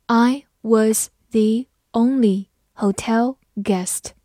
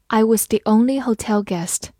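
First: Slow, word by word; slow reading. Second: Said in the usual way. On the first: Shown as a demonstration. Teacher reading slowly for students to follow. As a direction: read it slowly for learners. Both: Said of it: "好，慢慢来读".

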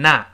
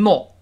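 First: American "not" with an open ah vowel; American pronunciation. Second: British "not" with a rounded o vowel; British pronunciation. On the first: Teacher contrasts accents for learners, American open-vowel "not". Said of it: "美音中把o变成a". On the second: Teacher contrasts accents for learners, British round-vowel "not". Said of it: "英国人读成not". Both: Shown as a demonstration.

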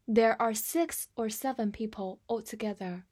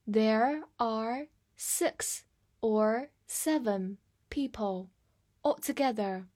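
First: Said in the usual way. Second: Very slow, separated words; slow read-through. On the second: Shown as a demonstration. Teacher demonstrates the example for learners, reading slowly. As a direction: model it slowly, one word at a time. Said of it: "来慢读一遍".

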